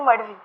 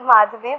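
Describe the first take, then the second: First: The middle consonant is a plain 'd' sound. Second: The middle consonant is an aspirated 'dh' sound. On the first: The speaker calls it right. "but it is Madvi" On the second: The speaker calls it wrong. "looks like Madhvi"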